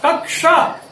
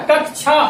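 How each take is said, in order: First: कक्षा said slowly as "kak-sha"; कक्षा with retroflex sh after k; correct pronunciation. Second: कक्षा said as "kak-chha"; कक्षा with aspirated ch instead of sh; wrong pronunciation. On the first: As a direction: give the क्ष in कक्षा a clear k-sh. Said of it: "इसका सही उच्चारण इस प्रकार होना चाहिए". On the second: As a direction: use a छ sound for the क्ष in कक्षा. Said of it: "जबकि ऐसा उच्चारण गलत है". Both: Shown as a demonstration.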